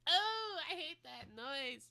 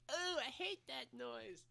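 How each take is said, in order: First: It is said with stronger emphasis. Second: It is said with milder emphasis.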